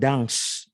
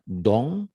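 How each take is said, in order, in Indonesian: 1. Kata ini berakhir dengan bunyi s yang terdengar. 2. Kata ini berakhir dengan vokal sengau, tidak ada s. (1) "bukan dangs" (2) "dong bukan dangs"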